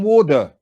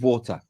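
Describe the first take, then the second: First: The middle consonant is a soft d sound. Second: The middle consonant is a clear t sound.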